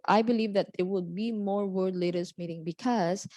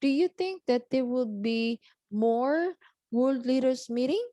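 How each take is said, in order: First: Statement tune, no lift on MORE or MEETING; non-question intonation. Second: Higher question, voice climbing on MORE and MEETING; rising question intonation. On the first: Teacher contrasting an answer with a question, level statement intonation through MEETING. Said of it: "Rather than". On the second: Teacher demonstrating how to ask questions, rising intonation up to MEETING. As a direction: lift the pitch through MORE, end MEETING on a rise. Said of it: "you can raise your voice". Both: Shown as a demonstration.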